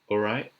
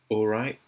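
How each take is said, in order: First: The final T is a glottal stop. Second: The final T is a glottal stop.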